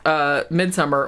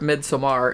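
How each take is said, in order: First: The name gets a plain English-style pronunciation. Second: The name gets a Swedish-style pronunciation. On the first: The speaker calls it wrong. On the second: The speaker calls it right.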